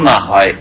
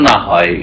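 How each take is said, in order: The two takes are said the same way.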